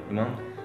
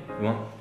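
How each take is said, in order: The two takes are said the same way.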